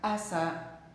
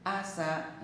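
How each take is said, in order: First: The s sound is short and single. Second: The s sound is short and single.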